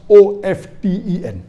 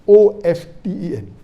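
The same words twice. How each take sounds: The two takes are said the same way.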